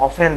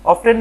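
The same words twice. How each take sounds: First: Often as "o-fen"; often with the t left out, "off-en"; silent t. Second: Often as "of-ten", higher and louder; often with a clear t; sounded t. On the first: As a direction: say often without the t. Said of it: "আমরা চেষ্টা করব". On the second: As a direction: say often with the t pronounced. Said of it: "often না ব্যবহার করি". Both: Shown as a demonstration.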